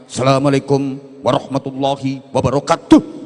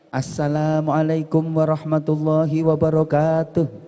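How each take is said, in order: First: It is said in a disciplined, firm military style. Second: It is said in a formal, ceremonial announcer style. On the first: The greeting comes from police or soldiers. "Polisi, tentara biasa dengan disiplin dan tegas" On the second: The greeting opens a formal event. "Kalau jadi M C, salamnya ya kayak tadi"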